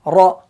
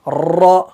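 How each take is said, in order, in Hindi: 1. र में बस हल्का सा तिकरार है। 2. र में तेज़ और लंबा तिकरार है। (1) "बिल्कुल हल्का सा तिकरार होगा।" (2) "अगर कोई ज्यादा करेगा तो ये बनेगा"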